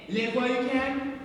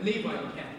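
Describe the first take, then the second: First: "Live" said short, like the verb to live; "Live while you can", slow, with a clipped short i in "Live"; "Live" as in living. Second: "Leave" stretched long, like going away; "Leave while you can", lower and softer, long ee in "Leave"; "Leave" as in to depart. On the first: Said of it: "Is she saying". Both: Shown as a demonstration.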